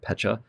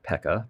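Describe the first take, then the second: First: The middle consonant is a 'ch' sound. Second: The middle consonant is a hard 'k' sound. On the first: The speaker calls it right. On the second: The speaker calls it wrong. "I've been mispronouncing that for my whole life. Not Pekka"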